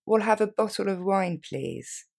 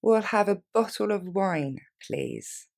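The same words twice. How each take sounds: First: Quicker, natural pace; faster. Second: Slow and clear, every word laid out; slowly. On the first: Teacher modelling the order for learners, at normal speed. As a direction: say it briskly like a real diner. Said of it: "Un peu plus rapidement". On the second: Teacher modelling the order for learners, slowly. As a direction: spell it out slowly for the class. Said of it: "On la reprend lentement". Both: Shown as a demonstration.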